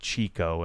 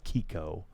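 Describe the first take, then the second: First: The name begins with a ch sound. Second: The name begins with a k sound. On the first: The speaker calls it wrong. "It's not Chico" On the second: The speaker calls it right. "I think it's Kiko"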